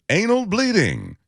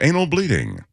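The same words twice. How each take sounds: First: It is read with more excitement and energy. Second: It is read in a calmer, less energetic way.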